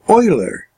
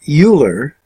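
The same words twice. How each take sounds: First: The first syllable sounds like 'oil'. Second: The first syllable does not sound like 'oil'. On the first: The speaker calls it right. "in the German, it's Euler. It's like oil" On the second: The speaker calls it wrong. "you would think you'd pronounce that Euler"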